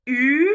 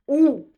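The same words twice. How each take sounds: First: "U" as a long front rounded vowel; French U sound. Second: "OU" as a back rounded vowel; French OU sound. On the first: Teacher contrasts confusable vowels, "U" fronted and rounded. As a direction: say "U" with tongue forward, lips rounded. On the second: Teacher contrasts confusable vowels, "OU" rounded at the back. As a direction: say "OU" with tongue back, lips rounded. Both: Shown as a demonstration. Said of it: "le U et le OU".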